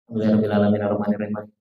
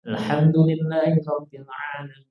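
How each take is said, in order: First: It is recited quickly with vowel lengths cut short. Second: It is recited carefully with full vowel lengths. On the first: The reciter is hurrying through it. The speaker calls it wrong. "pas doa bisiril fatihah" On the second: The prayer is being recited properly. The speaker calls it right. "imam fatihahnya bagus"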